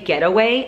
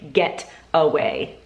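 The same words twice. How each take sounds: First: The two words run together like one word. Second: The two words are clearly enunciated and separate. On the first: The speaker calls it wrong. "I think she thinks it's one word" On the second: The speaker calls it right. "you have to like really enunciate get away"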